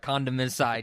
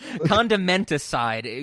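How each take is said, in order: First: The T sound is dropped. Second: The T sound is clearly pronounced. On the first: The speaker calls it wrong. "otherwise it sounds like you know we're we're condom side" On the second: The speaker calls it right. "You have to pronounce the T"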